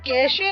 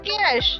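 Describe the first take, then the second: First: The word ends with an added ay vowel. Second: The word ends on the sh sound. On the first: The speaker calls it wrong. "એ કેશે નથી" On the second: The speaker calls it right. "જેને કહેવાય છે કેશ"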